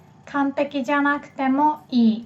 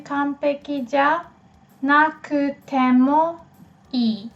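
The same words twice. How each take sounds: First: Said in the usual way. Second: Broken into pieces. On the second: Shown as a demonstration. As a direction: sound out 完璧じゃ, なくても, いい piece by piece. Teacher builds phrase in pieces.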